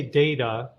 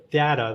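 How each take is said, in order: First: DATA pronounced DAY-tuh; DATA opening like the word "day"; long-A data. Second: DATA pronounced DAT-uh; DATA opening like the word "dad"; short-A data. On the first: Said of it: "if you say data, like I did". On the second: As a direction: give DATA a short A, as in cat. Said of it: "if you say data". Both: Shown as a demonstration.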